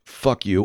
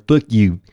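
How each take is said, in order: First: Said in the usual way. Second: "Fuck you" lisped loudly through buck teeth; loud mock buck-toothed curse; rabbit impression. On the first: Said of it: "he says the words". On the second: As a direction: say it like a rabbit with an overbite. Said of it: "he sounds like a rabbit".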